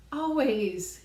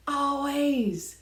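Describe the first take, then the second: First: Loud, high Always again falling; emphatic repeat. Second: Loud, high Always; emphatic always. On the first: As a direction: hammer the word Always home. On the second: Repeated emphatic word. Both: Real, not acted.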